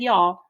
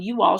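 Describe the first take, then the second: First: "y'all" run into one Southern syllable. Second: Said in the usual way. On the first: A narrator's reading. Mama talking Southern style when worried, Southern "y'all". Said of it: "talking Southern style". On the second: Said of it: "instead of saying "you all".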